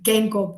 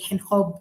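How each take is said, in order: First: The name is pronounced in an English way. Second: The name is pronounced in a Dutch way. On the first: "may be the English way" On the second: "I'm pronouncing it in a Dutch way"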